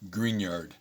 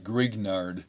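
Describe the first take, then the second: First: The name is said with French pronunciation. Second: The name is read with English spelling sounds. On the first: The speaker calls it right. "is the appropriate French um, pronunciation" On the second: The speaker calls it wrong. "not Grignard"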